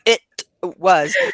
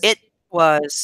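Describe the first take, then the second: First: The T in 'it' is fully released. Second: The T in 'it' is held back, unreleased. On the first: The speaker calls it wrong. "You're still saying you're going it was" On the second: The speaker calls it right. "your tongue goes up to the T, but we don't finish it"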